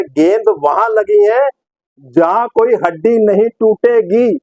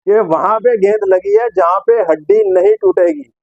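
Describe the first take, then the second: First: Slow, drawn-out comic punchline; Sidhu. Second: Said in the usual way. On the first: Retold or imitated. Presenter quoting Sidhu on a groin hit, slow declamation. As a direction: space out each word, holding back the laugh. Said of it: "तो अब सिद्धू इस पे क्या बोलते हैं?".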